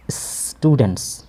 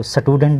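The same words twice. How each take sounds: First: स्टूडेंट्स drawn out slowly, s running straight into t; correct pronunciation. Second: स्टूडेंट with an extra vowel splitting s and t, "satudent"; mispronounced स्टूडेंट. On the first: Teacher models the word for the class, careful "sss-tudents". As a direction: hold the s in स्टूडेंट्स, no vowel before t. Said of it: "इसको स्टूडेंट नहीं पढ़ेंगे". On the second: Teacher shows the class how not to read it, mispronounced "sa-tudent". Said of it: "नहीं पढ़ेंगे". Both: Shown as a demonstration.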